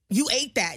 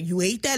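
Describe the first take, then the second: First: The voice falls at the end. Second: The voice rises at the end. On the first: The speaker is praising someone for doing something very well. "You sound excited" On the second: The speaker is asking, doubting why someone did it. "If you ask like a question"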